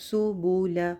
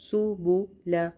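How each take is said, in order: Both takes have the same delivery.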